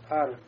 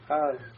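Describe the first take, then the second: First: The r is a single light tap. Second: The r barely touches and is hardly heard. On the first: The speaker calls it right. "Вот она такая получается" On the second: The speaker calls it wrong. "Если не прикоснемся... То есть не совсем слышно"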